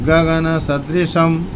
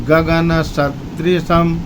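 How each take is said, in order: Both takes have the same delivery.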